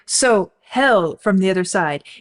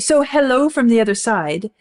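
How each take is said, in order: First: The second syllable of hello is barely heard. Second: Both syllables of hello are clearly pronounced. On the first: Life where the speaker is feels like hell. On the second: It is a greeting from far away.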